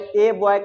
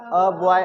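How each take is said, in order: First: The article is said as a full 'ay' vowel. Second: The article is said as a short 'uh' vowel. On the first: The speaker calls it wrong. "ए boy कभी मत कहना" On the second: The speaker calls it right. "अ पढ़ना चालू कर दो"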